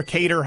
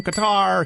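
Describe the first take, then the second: First: Qatar said as KAY-ter; quick alternative Qatar, like KAY-ter; first-syllable stress on Qatar. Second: Qatar said as kuh-TAR; long final syllable in Qatar, kuh-TAR; second-syllable stress on Qatar. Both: Shown as a demonstration. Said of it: "however you say it".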